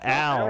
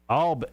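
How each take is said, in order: First: The vowel sounds like the word 'pal'. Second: The vowel sounds like the word 'all'. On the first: The speaker calls it wrong. "not Al" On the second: The speaker calls it right. "All, not Al"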